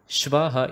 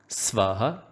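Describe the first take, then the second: First: The word begins with a sh sound. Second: The word begins with an s sound. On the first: The speaker calls it wrong. "Shvaha is wrong" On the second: The speaker calls it right. "Make sure that you say Sa"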